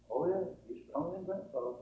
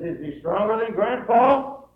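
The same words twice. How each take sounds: First: Soft, reassuring fatherly answer; patient father. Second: Put-on high, slow child's question, swelling loud; astonished boy asking about Grandpa; little boy. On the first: Retold or imitated. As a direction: answer the boy quietly, matter-of-fact. Father answers his little boy. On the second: Little boy questions his father.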